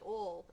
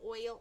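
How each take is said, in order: First: It is said in the speaker's home accent. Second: It is said in a western US accent.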